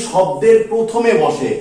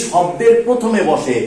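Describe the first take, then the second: No difference in how they are said.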